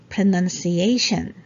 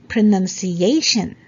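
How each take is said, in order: The two takes are said the same way.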